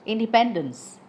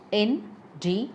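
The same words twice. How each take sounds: First: Said in the usual way. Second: Syllable by syllable. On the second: Shown as a demonstration. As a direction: say "Independence" as in, de, pen, dence with pauses. Word split to show syllables.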